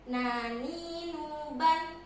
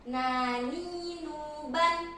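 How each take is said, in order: The two takes are said the same way.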